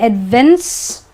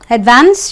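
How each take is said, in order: First: The last syllable has a reduced 'ens' vowel. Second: The last syllable has a full 'ance' vowel. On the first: The speaker calls it wrong. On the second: The speaker calls it right.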